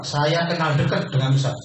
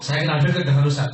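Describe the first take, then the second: First: Said in the usual way. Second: Enthusiastic. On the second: Shown as a demonstration. Coach showing the enthusiastic way to tell people, keen. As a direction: say it like you're proud of it. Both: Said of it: "Ngomongnya antusias gitu".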